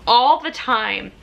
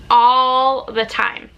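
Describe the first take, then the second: First: Said in the usual way. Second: "All the time" slow, louder, each word weighed; stress on All the time. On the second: Shown as a demonstration. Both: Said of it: "repeats with emphasis".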